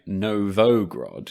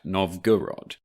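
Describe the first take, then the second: First: The middle syllable is vo, ending in grod. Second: The middle syllable is go, ending in rod. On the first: The speaker calls it wrong. "slight mispronunciation" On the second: The speaker calls it right. "when it's in fact Novgorod"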